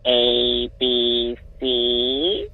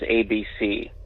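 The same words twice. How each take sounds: First: It is said in a creepy witchy old-lady voice. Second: It is said in the speaker's normal voice.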